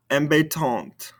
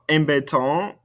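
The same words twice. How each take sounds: First: "Embêtante" falling onto an audible final T; sounded ending consonants. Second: "Embêtant" rising on an open nasal vowel; no T at the end of "Embêtant"; silent ending consonants. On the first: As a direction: release the last T of "Embêtante". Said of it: "makes us pronounce those ending consonants". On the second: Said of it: "these ending consonants". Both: Shown as a demonstration.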